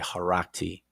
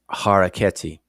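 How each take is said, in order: First: The name is run together into three syllables. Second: The name is said with four separate syllables.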